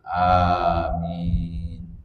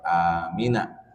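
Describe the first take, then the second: First: The word ends on a bare 'n' consonant. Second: The word ends with a short final 'a' vowel. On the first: The reader stops after the word. "wayaskunu indal wakof itu sukun" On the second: The word is read joined to what follows. "Ketika dibaca wasol"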